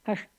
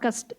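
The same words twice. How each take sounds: First: The middle sound is a tongue-curled 'sh'. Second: The middle sound is a plain hissing 's'. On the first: The speaker calls it right. "ನಾಲ್ಗೆ ಮೇಲ್ ಮಡ್ಚಿ, ಮೂರ್ಧನ್ಯ ಅಲ್ವಾ ಅದು" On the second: The speaker calls it wrong. "ಶ ಹೋಗಿ ಸ ಬಂದ್ಬಿಟ್ಟಿದೆ ನೋಡಿ"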